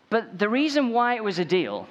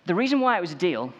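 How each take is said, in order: First: Accidentally Cowell-like. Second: Said in the usual way. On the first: Real, not acted. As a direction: restart the point with a higher, punchier voice. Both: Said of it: "that's not my impression of Simon Cowell".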